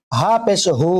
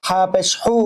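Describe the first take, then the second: First: "হু" with a light, open h; the other h. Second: "হু" with a tight h from the throat; one of two h's. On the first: Teacher contrasts two h letters, light h. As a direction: let the "হ" of "হু" out loosely. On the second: Teacher contrasts two h letters, tight h. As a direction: constrict the throat on "হু". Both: Shown as a demonstration. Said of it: "দুটার মাঝে পার্থক্য আছে".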